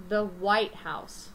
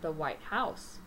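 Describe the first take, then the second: First: "White" punched louder and drawn out, "House" falling away; stress on WHITE. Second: "House" carries the emphasis, "White" held back; stress on HOUSE. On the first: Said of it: "we are stressing the word white". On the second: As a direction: lean on "House" as its own word after "White". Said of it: "I'm stressing the word house". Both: Shown as a demonstration.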